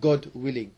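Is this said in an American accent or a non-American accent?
non-American. It is said in the speaker's usual, non-American accent.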